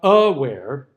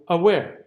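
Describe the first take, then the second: First: The first vowel is full and stressed. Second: The first vowel is a weak unstressed schwa. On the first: The speaker calls it wrong. "it's not aware" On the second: The speaker calls it right. "the uh sound is unstressed"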